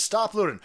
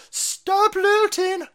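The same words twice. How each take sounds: First: Said in the usual way. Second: High, drawn-out mock wail; hammed-up high-pitched pleading; mock plea. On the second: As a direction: stretch it out high in a put-on plea. Acts out grandmother's plea to rioters.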